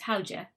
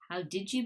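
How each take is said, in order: First: The words merge, with a j sound in the middle. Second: Each word is said fully and separately.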